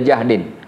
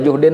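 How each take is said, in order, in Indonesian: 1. Vokal pertama adalah bunyi 'a'. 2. Vokal pertama adalah bunyi 'u'. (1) "boleh jahdin" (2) "boleh dibaca juhdin"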